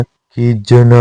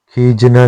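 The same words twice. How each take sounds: First: खीजना drawn out slowly as kheej-na; slow खीजना with neutral vowel after j; correct form. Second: खीजना with i slipped in, khijina; wrong form. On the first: Teacher giving the correction, slow careful खीजना. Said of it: "होता है". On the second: Teacher showing learners the mistake, खीजना as khijina. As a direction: say खीजना as khee-ji-na. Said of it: "नहीं होता". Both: Shown as a demonstration.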